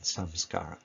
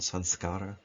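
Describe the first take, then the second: First: The middle nasal is pronounced as an M. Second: The middle nasal is pronounced as an N.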